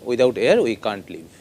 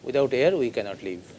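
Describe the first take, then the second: First: The negative is contracted to can't. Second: The negative is said in full as cannot. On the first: This is the form used in speech. "बोलते वक्त बोल सकते हैं" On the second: This is the form used in writing. "कैनॉट लिखते वक्त"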